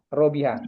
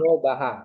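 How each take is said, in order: First: The second vowel is an i sound. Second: The second vowel is an a sound. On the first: The speaker calls it right. "Tapi di kamusnya dia robiha" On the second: The speaker calls it wrong. "Jadi kita fathahkan jadi robaha"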